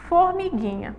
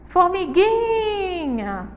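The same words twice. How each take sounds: First: Said in the usual way. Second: Formiguinha with GUI held very long and high; calling the word. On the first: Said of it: "é simplesmente chamar". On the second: Shown as a demonstration. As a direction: call out "Formiguinha", stretching the gui. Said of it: "demorar mais tempo". (chamar "Formiguinha", alongando bem o gui)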